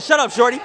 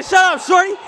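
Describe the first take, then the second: First: Said in the usual way. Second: Mock impression of a player. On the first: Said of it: "he said". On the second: Retelling a player's trash talk, high mocking imitation. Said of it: "He said".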